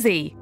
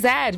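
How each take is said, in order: First: The letter is said the American way. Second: The letter is said the Irish way.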